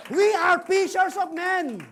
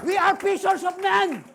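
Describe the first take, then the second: First: Slow. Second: Shouted. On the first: Repeated refrain slower. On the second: First take of the refrain. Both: Acted.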